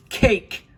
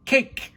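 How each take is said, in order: First: Put-on very high, loud toddler shriek again; baby's shriek. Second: Put-on very high, loud toddler shriek; baby's shriek. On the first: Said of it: "Sunny shrieked again". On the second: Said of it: "Sunny shrieked". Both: A narrator's reading. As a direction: squeal it like a hungry baby.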